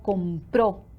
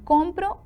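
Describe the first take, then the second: First: The stress is on the last syllable. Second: The stress is on the first syllable. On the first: Someone else bought it. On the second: The child is the one who buys.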